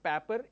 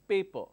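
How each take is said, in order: First: It is said with a regional pronunciation. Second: It is said with a standard pronunciation. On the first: The speaker calls it wrong. "So it's not paper" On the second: The speaker calls it right. "it's paper"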